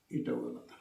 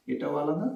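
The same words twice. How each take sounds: First: এটাও আলাদা breathed in a whisper. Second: Said in the usual way. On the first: Shown as a demonstration. Teacher whispers the contrast to pupils. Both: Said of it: "আলাদা করে বোঝানোর জন্য".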